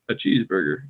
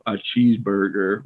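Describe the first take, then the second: First: "cheeseburger" level and easy; monotoned. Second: "cheeseburger" over-articulated; deliberate, emphasized "cheeseburger"; extra energy. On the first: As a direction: say "cheeseburger" with no extra energy. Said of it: "like, monotoned". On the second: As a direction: put needless effort into "cheeseburger". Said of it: "don't use more energy than you need". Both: Shown as a demonstration.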